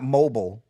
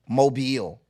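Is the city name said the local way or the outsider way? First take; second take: outsider; local. First: The name is said the usual outsider way. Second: The name is said the way locals say it. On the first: The speaker calls it wrong. "not mobile" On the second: The speaker calls it right. "That's how y'all say it"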